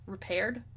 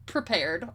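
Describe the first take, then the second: First: "Repaired?" said as a puzzled quiet question, dropping the P; misread. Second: "Prepared" said plainly with the P restored; corrected. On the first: Player questioning the misread word "Repaired", quiet and puzzled. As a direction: read "Repaired" as if the text were wrong. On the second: Player correcting herself to "Prepared", plain. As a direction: fix it to "Prepared", matter-of-fact. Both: Real, not acted.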